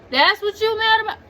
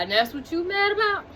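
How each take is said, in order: First: Higher and louder, fast, MAD hit hardest; louder repeat. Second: A bit higher, fast, disbelieving; incredulous question. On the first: Tied-up man repeating at his girlfriend, louder with MAD stressed. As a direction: throw it back at her, louder. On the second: Tied-up man snapping at his girlfriend, fast and incredulous. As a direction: ask it like he can't believe her. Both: Retold or imitated. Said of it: "He was just like".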